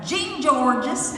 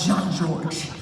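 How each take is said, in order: First: The name is said with an anglicized pronunciation. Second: The name is said with a French pronunciation. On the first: This is how the speaker first said it, not knowing better. The speaker calls it wrong. "I called it Jean Georges" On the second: This is the restaurant's actual name. The speaker calls it right. "It's called Jean Georges, right?"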